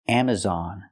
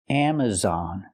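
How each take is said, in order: The two takes are said the same way.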